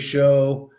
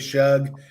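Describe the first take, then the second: First: The name ends with a vowel sound. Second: The name ends with a g sound. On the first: "you say show" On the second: "I say shug"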